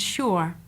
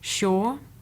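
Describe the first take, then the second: First: The vowel is a centering diphthong. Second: The vowel is a long 'or' monophthong. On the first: This is the older form. "which is an older form" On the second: This is the contemporary form. "use the long thought vowel or instead"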